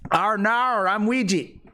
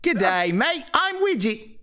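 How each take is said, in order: First: Higher, hammed Aussie growl; a rough stab at Australian; mock Australian accent. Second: Higher, bouncy Aussie greeting; Australian accent, much higher. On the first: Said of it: "the one thing I know how to say". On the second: Acted. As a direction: say it like a Crocodile Dundee. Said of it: "You're doing it".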